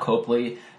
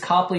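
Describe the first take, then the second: First: The first syllable sounds like 'cope'. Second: The first syllable sounds like 'cop'. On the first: The speaker calls it wrong. "not Copley" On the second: The speaker calls it right. "It's C-O-P-L-E-Y, not C-O-P-E-L-Y. So it's Copley"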